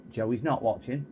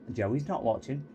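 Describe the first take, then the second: No difference in how they are said.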